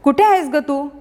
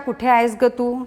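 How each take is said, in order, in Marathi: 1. तो जिवंत बोलण्यातील हाकेसारखा, भावपूर्ण पद्धतीने वाचला आहे. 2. तो साध्या, सपाट, निवेदनाच्या आवाजात वाचला आहे. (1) "संवादाच्या रूपात सांगितली" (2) "साध्या भाषेत सांगितला"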